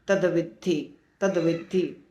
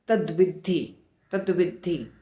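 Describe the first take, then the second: Both takes have the same delivery.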